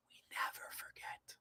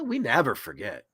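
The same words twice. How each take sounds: First: Barely audible whispered echo; fainter whisper. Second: Breathy ominous whisper of the motto. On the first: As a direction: let it fade to a ghostly whisper. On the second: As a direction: hiss it like a secret threat. Anonymous-style warning, hacker motto. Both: Pretend.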